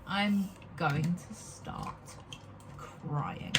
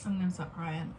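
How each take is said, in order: First: Put-on slow, low, fading to a breathy near-sob on American accent... no; slow mock despair, dropping lower and fading; mock crying. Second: Said in the usual way. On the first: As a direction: drag it out like a pretend breakdown. Repeats threat to cry, dramatised.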